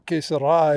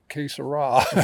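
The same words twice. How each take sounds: First: It is said with a Spanish-style pronunciation. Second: It is said with an English-style pronunciation.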